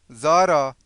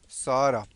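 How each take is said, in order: First: The name begins with a Z sound. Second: The name begins with an S sound.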